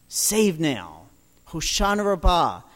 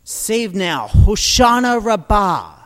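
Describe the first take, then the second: First: Said in the usual way. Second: Loud ritual cry. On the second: Retold or imitated. Crowd at the altar crying out, loud. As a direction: call it out to the heavens. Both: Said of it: "they would cry out".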